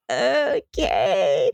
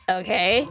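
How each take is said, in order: First: Long, drawn-out falling okay; OKAY stretched into a mild whine; reluctant compliance. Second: Said in the usual way. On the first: Acted. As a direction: drag out OKAY as you give in. River answers being called over.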